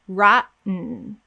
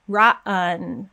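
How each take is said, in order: First: No vowel sound comes before the final N. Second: A vowel sound comes before the final N. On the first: The speaker calls it right. "There's no vowel" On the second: The speaker calls it wrong. "I'm not saying rotten, rotten with a vowel"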